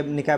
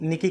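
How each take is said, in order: First: "निकाय" said nik-KAI, open final vowel; ends in "ai". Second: "निकी" said NIK-ee; ends in "ee". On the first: Teacher shows the other way people say it, "निकाय" ending in an ai glide. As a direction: end "निकाय" on an ai or ay glide, not ee. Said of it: "निकाय बोलते हैं". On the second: Teacher shows how people say the index name, "निकी" ending in ee. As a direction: end "निकी" on a long ee sound. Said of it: "निकी करके बोलते हैं लोग". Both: Shown as a demonstration.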